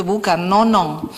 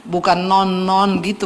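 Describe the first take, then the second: First: "nonong" drawn out with a falling end, slowly; nickname Nonong. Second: "non-non" said as a clipped repeated syllable; plain. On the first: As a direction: stretch "nonong" and let it fall. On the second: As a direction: say "non-non" short and light, slowly. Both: Shown as a demonstration.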